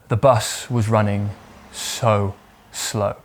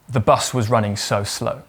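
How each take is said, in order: First: The sentence is spoken slowly and drawn out. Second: The sentence is spoken at a normal pace.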